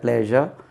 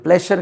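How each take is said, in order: First: The middle consonant is a voiced 'zh' sound. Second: The middle consonant is a voiceless 'sh' sound. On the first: The speaker calls it right. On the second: The speaker calls it wrong. "ப்ளஷர் கிடையாது"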